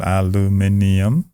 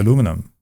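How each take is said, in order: First: It is said as aluminium, following that spelling. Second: It is said as aluminum, following the local usage. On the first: This is the way the speaker used to say it. "isn't that how it's spelled?" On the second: This is the way the speaker says it now to be understood. "today I say aluminum just because I live here"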